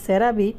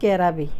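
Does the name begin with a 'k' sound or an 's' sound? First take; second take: s sound; k sound. First: The name begins with an 's' sound. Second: The name begins with a 'k' sound. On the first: The speaker calls it right. "যেটার নাম সেরাবি" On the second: The speaker calls it wrong. "এটাকে সে promote করছে ক্যারাবি"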